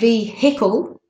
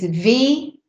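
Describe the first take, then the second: First: The middle H sound is pronounced. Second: The middle H sound is silent. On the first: The speaker calls it wrong. "So it's not vehicle" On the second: The speaker calls it right. "it's vehicle"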